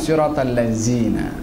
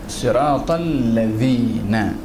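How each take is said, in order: First: The consonant is a plain buzzing z sound. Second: The consonant is a soft th-like dh sound. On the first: The speaker calls it wrong. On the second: The speaker calls it right.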